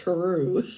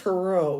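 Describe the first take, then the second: First: The name ends in an 'oo' sound. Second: The name ends in an 'oh' sound. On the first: The speaker calls it right. "pronounced her, and then Rue" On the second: The speaker calls it wrong. "he always say my last name wrong"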